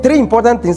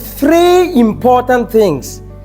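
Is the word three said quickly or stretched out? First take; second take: quickly; stretched. First: The word three is said quickly, not drawn out. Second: The word three is drawn out slowly. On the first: Nothing is marked as especially important. The speaker calls it wrong. "instead of saying three important things" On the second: This point is important and deserves attention. The speaker calls it right. "I said three, so that it gives you some time"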